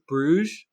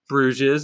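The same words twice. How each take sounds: First: Bruges is pronounced the usual way. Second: Bruges is pronounced in an idiosyncratic way. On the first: The speaker calls it right. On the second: The speaker calls it wrong.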